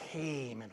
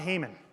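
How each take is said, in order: First: The name is said with a hissing, sinister sound. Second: The name is said plainly, without a hiss. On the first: The speaker calls it right. "like a hiss, like a Haman" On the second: The speaker calls it wrong. "No, no, no, not Haman"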